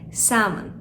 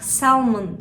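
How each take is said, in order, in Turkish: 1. Bu kelimede L sesi okunmaz. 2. Bu kelimede L sesi okunur. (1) "burada L harfi sessiz, yani salmon" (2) "Bunun okunuşunu daha önce duymadıysak salmon şeklinde söyleyebiliriz"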